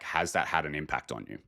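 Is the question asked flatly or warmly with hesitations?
flatly. It is asked plainly, without hesitations.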